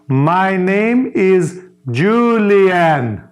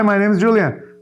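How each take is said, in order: First: It is said slowly with every word overpronounced. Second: It is said at an ordinary, natural pace.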